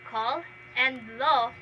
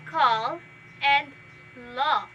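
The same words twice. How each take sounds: First: The vowels in both words are short. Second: The vowels in both words are long. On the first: "which have the short vowel sound" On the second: "which has the long vowel sound"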